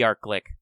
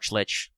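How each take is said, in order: First: The word ends with a hard k sound. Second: The word ends with a ch sound. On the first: "the hard K" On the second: "the ch sound"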